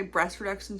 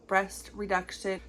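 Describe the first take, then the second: First: BREAST REDUCTION run together and slightly stumbled; real stumble on BREAST REDUCTION; tongue-tied. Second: BREAST REDUCTION slow, each word separated; deliberate, slowed BREAST REDUCTION after a stumble; careful enunciation. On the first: Real, not acted. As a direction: trip lightly over BREAST REDUCTION, syllables blurred. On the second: Shown as a demonstration. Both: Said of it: "I can't say that".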